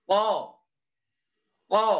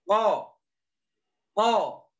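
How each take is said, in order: The two takes are said the same way.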